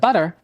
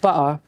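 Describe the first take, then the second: First: It is said in an American accent. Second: It is said in a Cockney-style British accent.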